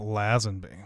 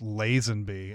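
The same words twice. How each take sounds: First: The first vowel is a short A sound. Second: The first vowel is a long A sound. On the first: The speaker calls it wrong. "and not" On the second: The speaker calls it right. "You have to make the long A"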